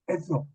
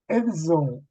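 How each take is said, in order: First: The two consonants merge into a single sound. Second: The two consonants are pronounced as separate sounds. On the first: The speaker calls it wrong. "z를 하나의 음소처럼 소리내기도 합니다 ... 그것은 잘못이에요" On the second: The speaker calls it right. "우리 한국 사람들은 발음을 잘 해요"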